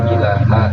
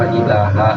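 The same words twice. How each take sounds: No difference in how they are said.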